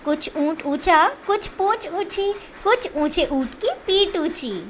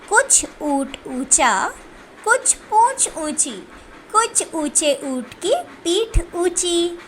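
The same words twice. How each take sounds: First: The lines are spoken quickly. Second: The lines are read slowly and calmly. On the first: "फिर इसको तेज़ी तेज़ी से बोलते हैं।" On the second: "पहले हम इन पंक्तियों को आराम से पढ़ते हैं"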